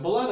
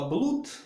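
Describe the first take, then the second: First: The vowel sounds like a short 'uh'. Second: The vowel sounds like a long 'oo'. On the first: The speaker calls it right. "мы произносим это слово как блад" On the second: The speaker calls it wrong. "большинство студентов, не задумываясь, говорят блуд"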